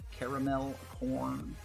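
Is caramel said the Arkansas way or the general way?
general. Caramel is said in a general, non-regional way.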